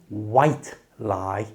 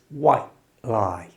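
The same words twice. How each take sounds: First: The final t in white is fully released. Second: The final t in white is a glottal stop. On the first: The speaker calls it wrong. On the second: The speaker calls it right. "We use something called a glottal stop"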